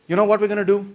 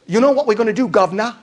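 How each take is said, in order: First: Said in the usual way. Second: Hammed-up British working-class accent, higher; terrible British worker accent. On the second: Organized worker telling off the boss, bad British accent. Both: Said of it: "sorry, terrible accent".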